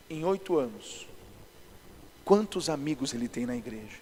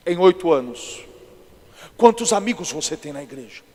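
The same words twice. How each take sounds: First: Low, soft voice of God; quiet imitation of God prompting the pastor; God speaking. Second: Acted solemn questioning; different put-on voice. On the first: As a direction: speak low and softly, as a word to the heart. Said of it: "Aí Deus falou pra mim assim". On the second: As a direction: put on a weighty pastor voice, projected firmly. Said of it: "fiz outra voz diferente".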